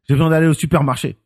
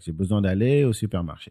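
First: It is said intensely, punching every syllable. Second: It is said in standard, neutral French.

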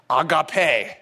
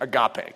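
First: The word is pronounced the Greek way. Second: The word is pronounced the familiar English way. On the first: "this is the correct Greek way of pronouncing it" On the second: "most of you are thinking"

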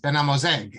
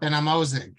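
First: The name has a non-Ashkenazi pronunciation. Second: The name has an Ashkenazi pronunciation. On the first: The speaker calls it right. "as you correctly just said" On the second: The speaker calls it wrong.

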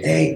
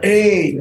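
First: It is said at a lower, normal pitch. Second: It is said at a higher pitch.

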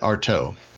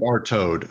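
First: The name ends with no D sound. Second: The name ends with an audible D sound. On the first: The speaker calls it right. "The D is silent" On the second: The speaker calls it wrong. "I do pronounce it Artaud. Is that wrong?"

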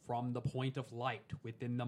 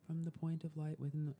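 First: The voice is full and forceful, with strong energy. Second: The voice is light and thin, with little force. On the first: "when I come in full engagement" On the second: "that's like the top or upper chakras right there"

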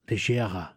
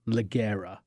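First: The middle g is soft, as in lingerie. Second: The middle g is hard, read as spelled. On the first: The speaker calls it right. "It's Leggera" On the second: The speaker calls it wrong. "not Leggera"

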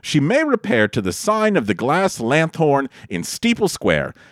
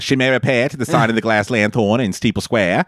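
First: It is read in a neutral, unaccented voice. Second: It is read in a Boston accent.

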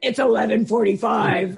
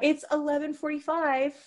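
First: The tone is cold and curt. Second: The tone is warm and friendly. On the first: The speaker is keeping distance for self-protection. "it's okay to not be nice" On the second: The speaker is being polite and welcoming. "instead of saying, oh yeah"

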